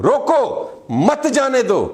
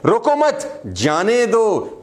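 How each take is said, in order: First: High "रोको" alone, pause, then "मत जाने दो" run together; pause after रोको. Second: "रोको मत" joined and high, full stop, then slow "जाने दो"; pause after मत. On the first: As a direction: stop dead after "रोको", join "मत" to "जाने दो". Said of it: "इसी लाइन को मैं ऐसे बोलूं". ("रोको" के बाद ठहराव, फिर "मत जाने दो") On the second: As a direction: put the comma after "मत". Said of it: "मत पे मैंने फुल स्टॉप लगाया, कोमा लगाया". ("मत" पर रुककर धीरे "जाने दो") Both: Shown as a demonstration.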